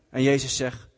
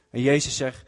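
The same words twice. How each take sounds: The two takes are said the same way.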